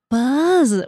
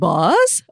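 First: The vowel is a short 'uh', ending in z. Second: The vowel is an 'aw' sound, ending in s. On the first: The speaker calls it right. "Buzz with a Z" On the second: The speaker calls it wrong. "they're like boss"

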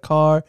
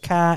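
First: It is said in a standard accent. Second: It is said in a Boston accent. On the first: "instead of car" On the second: "He says car"

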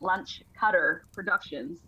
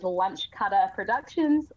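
First: It is said in an American accent. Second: It is said in a New Zealand accent.

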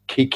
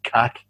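First: The word has a long 'ee' vowel, local style. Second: The word has a short 'a' vowel, English style.

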